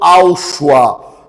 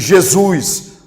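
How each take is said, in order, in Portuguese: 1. O nome é dito com pronúncia do aramaico siríaco. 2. O nome é dito com pronúncia do português brasileiro. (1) "na pronúncia do siríaco aramaico" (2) "na pronúncia tupiniquim cearense"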